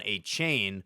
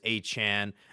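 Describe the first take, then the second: First: The surname sounds like 'Achane'. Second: The surname sounds like 'Achan'. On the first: The speaker calls it wrong. "people want to pronounce Devon Achan, Devon Achane" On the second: The speaker calls it right. "but it's Achan"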